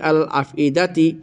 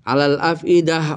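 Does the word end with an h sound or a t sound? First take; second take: t sound; h sound. First: The word ends with a t sound and vowel. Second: The word ends with an h sound. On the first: The reading continues without stopping. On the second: The reader stops at this word.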